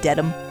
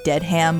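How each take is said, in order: First: It is said as one blended word. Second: It is said as two words, dead and ham. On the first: The speaker calls it right. "but it's Dedham" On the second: The speaker calls it wrong. "so you'd think that would be Dead Ham"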